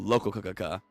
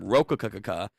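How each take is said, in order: First: The name begins with an L sound. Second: The name begins with an R sound. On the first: This is the newer form of the name. "to Lokakakaka" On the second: This is the older form of the name. "They changed up the pronunciation from Rokakakaka"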